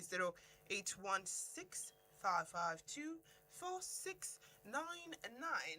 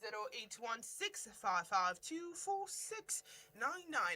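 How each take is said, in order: First: The number is read slowly and deliberately. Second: The number is read at normal, quicker speed.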